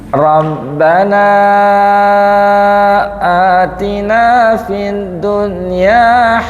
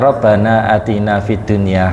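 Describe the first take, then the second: First: The final vowel of Rabbana is drawn out long. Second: The final vowel of Rabbana is kept short. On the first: It follows the formal recitation rules. "kalau panjenengan kepingin dengan tajwid" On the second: It is read plainly as a prayer text. "Tidak apa-apa kalau sebagai teks doa"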